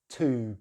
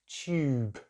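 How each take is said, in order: First: American accent, with no 'y' sound after the t. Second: British accent, with a 'y' sound after the t. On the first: "Americans just say tube" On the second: "we put this little Y sound in between"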